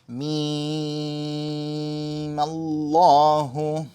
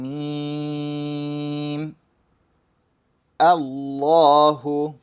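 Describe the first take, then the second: First: Mim runs straight into the lam, dropping the vowel. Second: Mim stops, then Allahu starts with its own vowel. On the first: "you're going straight from the mim to the lam" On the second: "let's say I said each word separately"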